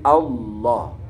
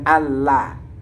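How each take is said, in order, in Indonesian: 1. Bunyi L itu tebal dan berat. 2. Bunyi L itu tipis dan ringan. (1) "tapi Allah. Itu dibaca tebal" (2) "bukan Allah"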